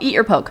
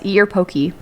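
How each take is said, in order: First: The last word has one syllable, rhyming with 'joke'. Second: The last word has two syllables, ending in 'ay'. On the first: It reads as a jab or prod. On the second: It names the raw fish dish.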